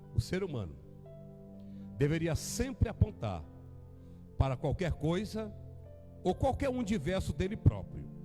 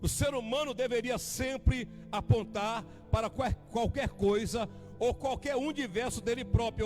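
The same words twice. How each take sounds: First: It is spoken very slowly. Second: It is spoken at a normal pace.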